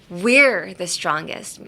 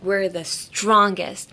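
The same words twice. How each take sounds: First: The stress falls on the word we're. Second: The stress falls on the word strongest. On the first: It focuses on who is strongest. "would focus on us" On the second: It focuses on the strength itself. "if you put emphasis on strongest"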